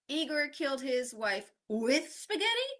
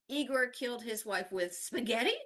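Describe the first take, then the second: First: The word with carries the main stress. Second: The word spaghetti carries the main stress. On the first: Spaghetti was the means, not the motive. "not for spaghetti or because of the spaghetti" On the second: The weapon was spaghetti, not a knife. "not a knife"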